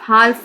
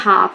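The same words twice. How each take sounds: First: The L is pronounced in the word. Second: The L is silent in the word. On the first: The speaker calls it wrong. "हाफ नहीं read करेंगे" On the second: The speaker calls it right. "इसको read करते हैं हाफ"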